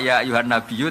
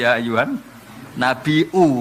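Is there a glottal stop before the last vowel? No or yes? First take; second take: no; yes. First: The last word has a doubled y, no glottal stop. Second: The last word has a glottal stop, no doubled y. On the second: "nganggo hamzah"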